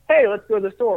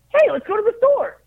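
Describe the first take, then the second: First: It is said in a normal, lower speaking voice. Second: It is said in a raised, higher-pitched voice. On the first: This is the speaker's own natural voice. "if I was saying" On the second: This is the character's voice. "Finn is just kind of in my higher register now"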